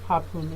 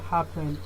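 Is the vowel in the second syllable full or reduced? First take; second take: reduced; full. First: The second syllable has a reduced schwa vowel. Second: The second syllable has a full vowel. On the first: The speaker calls it right. "Say happen" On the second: The speaker calls it wrong. "instead of happen"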